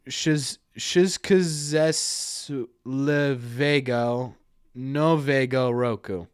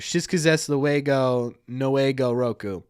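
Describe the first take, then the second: First: The 'w' letters are sounded like English v. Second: The 'w' letters are sounded like English w.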